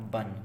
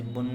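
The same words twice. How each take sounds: First: बन said with a short a vowel, as in the English bun; the right reading बन with a short uh sound; correct reading. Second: बुन said with an oo sound, as in put; the mistaken reading बुन with a rounded oo vowel; wrong reading. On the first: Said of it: "आ आएगा छोटा". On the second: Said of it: "तो इसे बुन नहीं पढ़ेंगे". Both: Shown as a demonstration.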